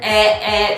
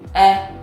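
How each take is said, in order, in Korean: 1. 이 모음 소리는 긴장되어 있고 목에서 납니다. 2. 이 모음 소리는 편안하고 가슴에서 울립니다. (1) "목에서 나는 에, 에 라는 소리가 아니고요" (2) "가슴에서 울려서 나는 소리입니다. 그리고 이 에 발음은 힘을 완전히 빼시고요"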